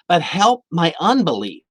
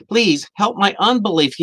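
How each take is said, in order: First: Said in the usual way. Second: Higher, more urgent begging; a father's rising plea for help; pleading plea. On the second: Retold or imitated. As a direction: beg him harder this time. Man begs Jesus, repeated.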